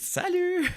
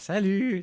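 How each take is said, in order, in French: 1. Le mot « salut » est dit d'un ton vif, avec beaucoup d'énergie. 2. Le mot « salut » est dit d'un ton plat, avec peu d'énergie. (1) "non, c'est c'est salut" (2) "ils reviennent de dîner"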